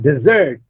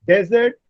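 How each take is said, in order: First: The stress is on the second syllable. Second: The stress is on the first syllable. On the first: It is used as a verb. "desert is a verb. In the verb, the stress shifts on the second syllable" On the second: It is used as a noun. "Desert is a noun ... In noun, the stress is on the first syllable"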